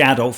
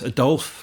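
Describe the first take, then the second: First: The name is said the plain English way. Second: The name is said the French Belgian way. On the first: The speaker calls it wrong. "don't say Adolf" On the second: The speaker calls it right. "it's Adolphe because he's Belgian"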